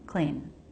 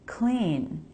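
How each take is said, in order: First: The word is said unstressed, quieter and lower. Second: The word is said stressed, louder and higher. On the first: The speaker calls it right. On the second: The speaker calls it wrong. "rather than"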